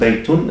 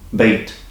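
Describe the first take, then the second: First: The word ends with an added -un sound. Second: The word ends bare, with no -un sound. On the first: The reading continues straight on after the word. "Contextual reading" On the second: The reader pauses after the word. "paused reading"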